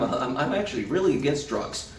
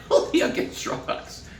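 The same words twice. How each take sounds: First: Said in the usual way. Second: "Really against drugs" said slower and breathy as a punchline; slow repeated emphasis. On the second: Pretend. Repeating the dentist joke's punchline slowly.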